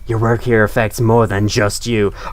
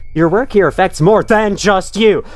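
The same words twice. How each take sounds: First: It is read in a plain, ordinary voice. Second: It is read in a big, emphatic voice. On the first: The speaker calls it wrong. "Or sorry, no" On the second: The speaker calls it right. "let me read in the proper tone based on the size"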